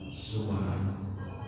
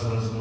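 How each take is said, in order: First: Each syllable is pronounced clearly and distinctly. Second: The syllables are rushed and run together. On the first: The speaker calls it right. "yang jelas subhanallah" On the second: The speaker calls it wrong. "Jangan subhanallah"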